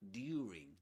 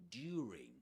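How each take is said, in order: First: It is said with an older received pronunciation. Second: The same.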